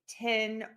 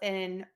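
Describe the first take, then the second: First: The word begins with a T sound. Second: The word begins with an F sound. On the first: "I might hear people say tin" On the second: "or fin"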